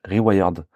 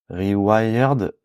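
First: Rewired said lower, like "ree-WAI-yerd", with a short falling end; English word again. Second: Rewired said as "ree-WIRED" with a falling end, French-accented; a self-conscious try at the English word Rewired, falling at the end. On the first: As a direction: another stumbling, lower go at the English Rewired, French-accented. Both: Shown as a demonstration. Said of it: "Putain, mon accent anglais, c'est chaud".

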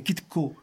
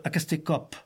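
First: "Kitco" with the final p dropped; Puy-de-Dôme Occitan "Kitco", clipped of its last consonant; northern Occitan pronunciation. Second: "Acastécope" with the final p clearly sounded; southern Occitan "Acastécope", final consonant kept; Toulouse Occitan pronunciation. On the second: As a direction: end "Acastécope" on a released p, as in Toulouse. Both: Shown as a demonstration. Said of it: "souvent les consonnes finales tombent".

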